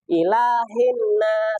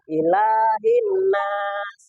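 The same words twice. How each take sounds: First: The vowel is clipped short and rushed. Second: The vowel is held for two beats. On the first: The speaker calls it wrong. "ada yang cepat bacaannya" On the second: The speaker calls it right. "Sebenarnya itu dua harokat"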